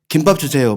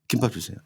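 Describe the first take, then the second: First: The phrase is said clearly through to the end. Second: The voice trails off at the end of the phrase. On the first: This is how the speaker first ordered, and it was not understood. "이렇게 얘기만 한다고 치면은 그걸 못 알아듣더라고요" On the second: This is the speaker's habit now, after feeling embarrassed. "말끝을 흐리는 말투가 됐어. 약간 이런 식으로"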